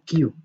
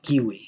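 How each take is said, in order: First: The word is said as one syllable, like 'cue'. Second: The word is said as two syllables, like 'kiwi'. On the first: The speaker calls it right. "ellos dicen Q" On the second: The speaker calls it wrong. "y no kiwi"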